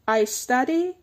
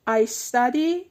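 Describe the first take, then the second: No difference in how they are said.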